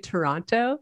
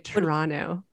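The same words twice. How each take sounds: First: The second t is clearly pronounced. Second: The second t is dropped. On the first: This is how outsiders say the name. "when you guys say it, you say Toronto" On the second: This is how locals say the name. "if you're in Toronto, you don't say that. You say Toronto. The second Toronto. T is"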